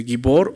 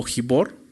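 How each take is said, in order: First: "gibor" with a hard g; hard g pronunciation. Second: "gibor" with an h-like first sound; breathy j pronunciation. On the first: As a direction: start "gibor" with g as in go. Algunos lo pronuncian así. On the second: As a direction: start "gibor" like Spanish j. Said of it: "algunos lo pronuncian así". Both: Shown as a demonstration.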